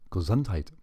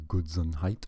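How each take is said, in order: First: Hammed-up German accent, punched on the middle syllable; cartoonish German accent. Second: Said in the usual way. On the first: Shown as a demonstration. Quoting what Germans say after a sneeze, cartoonish German accent. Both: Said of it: "cartoonish German accent".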